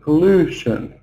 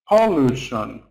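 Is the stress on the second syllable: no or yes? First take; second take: yes; no. First: The stress is on the second syllable. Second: The stress is not on the second syllable. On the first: The speaker calls it right. "the second syllable is long because it's stressed" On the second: The speaker calls it wrong. "It's the wrong stress"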